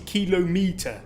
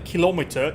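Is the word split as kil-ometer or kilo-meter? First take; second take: kilo-meter; kil-ometer. First: The word is split as kilo-meter. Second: The word is split as kil-ometer. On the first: The speaker calls it right. "It's a kilometer. You have a thousand meters" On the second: The speaker calls it wrong. "It's not a kilometer"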